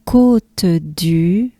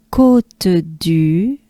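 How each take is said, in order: Both takes have the same delivery.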